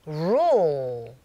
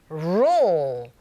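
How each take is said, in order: The two takes are said the same way.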